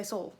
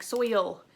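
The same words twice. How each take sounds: First: Soul said like soul with an oh sound for soil; Tennessee soul. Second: Put-on soil said with the oi sound as in boy; standard soil. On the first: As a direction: Tennessee way, soul rhyming with goal. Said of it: "whenever you hear soul". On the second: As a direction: say soil with a clear oi. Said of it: "it takes way too long to say soil". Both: Shown as a demonstration.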